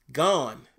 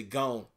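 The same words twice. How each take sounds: First: "gone" with an open ah vowel, like "gahn"; corrected pronunciation. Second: Country-accent "gone", like "goan". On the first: Streamer fixing his country slip, "gone" said carefully with an open vowel. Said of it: "Y'all heard me say gone". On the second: Streamer showing viewers his slip, country accent on "gone". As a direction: say "gone" rhyming with "bone", country style. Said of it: "there's a country accent coming out". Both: Shown as a demonstration.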